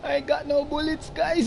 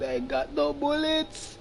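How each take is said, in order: First: High, laughing and panicked. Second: Laughing panic. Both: Real, not acted.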